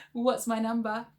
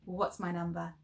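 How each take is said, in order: First: Louder silly voice with a laugh; funny voice. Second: Said in the usual way. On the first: Shown as a demonstration. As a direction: ham it up in a funny voice. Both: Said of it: "shout them out in your funny voices".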